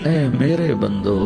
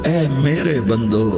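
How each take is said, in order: The two takes are said the same way.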